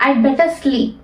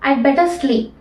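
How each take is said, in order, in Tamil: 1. 'had' என்ற சொல் முழுவதுமாக விடுபடுகிறது. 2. 'had' என்ற சொல் முழுவதுமாக விடுபடுகிறது.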